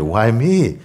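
It sounds amazed and grateful.

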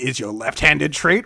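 It is said in a put-on character voice. "You want me to do Kogoro?"

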